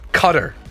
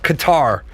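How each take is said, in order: First: It is pronounced like the word cutter. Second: It is not pronounced like the word cutter. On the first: The speaker calls it wrong. "It's not C U T T E R" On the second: The speaker calls it right. "It's Qatar"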